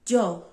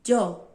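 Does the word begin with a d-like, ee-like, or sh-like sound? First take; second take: d-like; d-like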